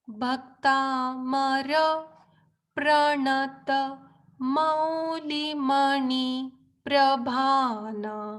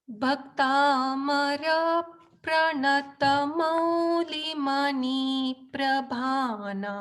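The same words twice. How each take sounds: First: It is recited more slowly. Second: It is recited at a normal pace.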